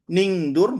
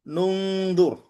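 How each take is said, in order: First: The first vowel is an i sound. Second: The first vowel is a u sound. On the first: The speaker calls it wrong. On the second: The speaker calls it right. "jadi dengan domah"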